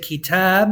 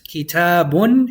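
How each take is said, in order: First: The word ends without the final 'un' sound. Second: The word ends with a final 'un' sound. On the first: The reader stops on the word. "If you stop on it, you can also say kitab, and you just simply don't read the un at the end" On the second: The word is read in full without stopping. "if you read it one hundred percent"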